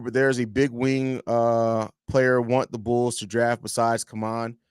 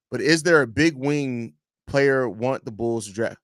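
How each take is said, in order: First: Said in the usual way. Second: Slow reread leaning on "is"; stress on IS. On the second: Real, not acted. Host correcting his reading of a viewer's question, slow stress on "is". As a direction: make "is" carry the question, slowly.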